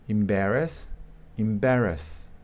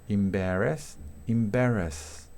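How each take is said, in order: No difference in how they are said.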